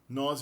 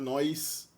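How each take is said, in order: First: No glide comes before the final consonant. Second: An ee-like glide comes before the final consonant.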